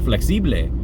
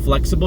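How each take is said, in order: First: The word is said with Spanish pronunciation. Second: The word is said with English pronunciation. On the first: "you say flexible. It probably means flexible, but in Spanish" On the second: "instead of flexible"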